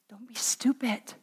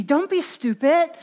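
First: Very soft, breath-only whisper. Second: Higher-pitched, voiced goading. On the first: Acted. The enemy whispers to the believer, whispered. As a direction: whisper it like a secret prompting. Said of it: "And he whispers". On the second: The enemy talking Rhea out of forgiving, goading. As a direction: goad her aloud, pitched up.

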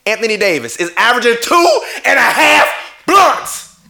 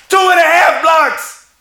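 First: Reads the stat through a laugh; chuckling, can't believe the number; laughing disbelief. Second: Much higher, loud and slow, leaning on two; outraged shout. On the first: Laughing at the stat while ranting to viewers about the MVP. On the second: Yelling the stat at viewers to make his point. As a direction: bellow the stat back in disbelief. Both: Real, not acted.

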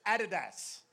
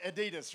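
First: "Adidas" with stress on the first syllable; Australian pronunciation. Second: "Adidas" with stress on the middle syllable; American pronunciation. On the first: Shown as a demonstration. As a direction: say "Adidas" as AD-i-das. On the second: Retold or imitated. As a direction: say "Adidas" the American way, a-DEE-das. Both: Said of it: "we say a little bit differently".

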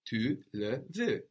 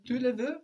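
First: "Tu le veux." falling as a statement; slow and settled, falling at the end; statement tune. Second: "Tu le veux?" with a sharp high rise; question tune. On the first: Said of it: "Do you want it?". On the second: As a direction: lift the voice high to ask. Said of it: "Just with your voice". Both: Shown as a demonstration.

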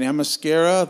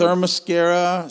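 First: Themyscira said fast, the first syllable blurred toward "am-uh-SKEH-ruh"; unsure first try at Themyscira. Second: Themyscira said slowly and carefully as "thuh-muh-SKEH-ruh", falling at the end; corrected Themyscira. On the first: Asking a cohost how to say the island's name, tentative. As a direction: rush through Themyscira without being sure of it. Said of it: "how do you say it". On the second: Repeating the cohost's correction of the island name, careful. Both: Shown as a demonstration.

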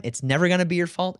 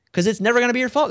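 First: Said in the usual way. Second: 'cause it's never gonna be your fault, higher and louder, stress on fault; emphatic repeat. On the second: Real, not acted. Leader repeating his point to the host, higher and louder. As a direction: drive the point home the second time.

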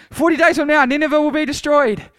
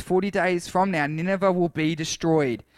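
First: High, loud proclamation; full-voiced prophetic shout; shouted to crowds. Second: Said in the usual way. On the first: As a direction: shout it out as a warning to a whole crowd. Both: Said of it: "he shouted to the crowds".

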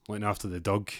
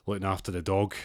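First: Dug said with a short uh vowel, rhyming with rug; local pronunciation. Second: Said in the usual way. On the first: Shown as a demonstration. [name] joking to Amjad about minding the dug, broad Scots vowel. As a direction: say dug the Scots way, dog turned into dug. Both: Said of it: "as they would say".

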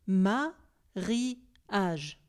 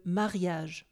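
First: "mariage" in three separate beats, ma - ri - age; split into syllables. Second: Said in the usual way. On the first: Shown as a demonstration. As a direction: pause between each syllable of "mariage". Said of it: "diviser ce mot en syllabes". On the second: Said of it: "vous devez diviser ce mot en syllabes".

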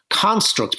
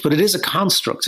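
First: Said in the usual way. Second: "is" raised and leaned on; "it is a construct", weight on "is"; stress on is. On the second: Real, not acted. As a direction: insist with a push on "is". Insisting Britain is a construct.

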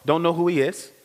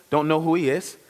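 The two takes are said the same way.

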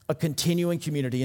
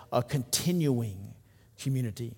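First: Quick, falling restatement; brisk restatement. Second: Slow, soft and drawn out. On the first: Preacher restating his point to the church, quickly and firmly. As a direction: rattle it off with a firm drop on continuing. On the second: Preacher slowing down to stress the word, slow and soft. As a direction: let each syllable of continuing linger quietly. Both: Shown as a demonstration.

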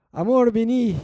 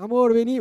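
First: Louder, higher "Amor, vení" falling at the end; calling out. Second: Louder, higher "Amor, vení" rising at the end; insistent call. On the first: Wife calling her busy husband, loud call falling. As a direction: call him from across the house. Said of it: "A veces la mujer dice". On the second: Wife calling again when husband ignores her, rising. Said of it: "se hace del tonto". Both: Retold or imitated.

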